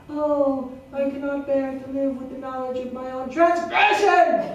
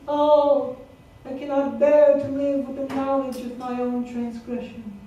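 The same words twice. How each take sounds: First: It is said loudly, as an exclamation. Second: It is said flatly, without exclamation.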